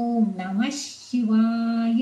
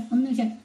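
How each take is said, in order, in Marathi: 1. शेवटचा अक्षर पूर्ण म्हणतात आणि ताणून म्हणतात. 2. शेवटचा अक्षर अर्धवट, थोडक्यात म्हणतात. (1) "या शेवटचा पूर्ण म्हणायचा" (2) "आपण तो वाय नीट म्हणत नाही"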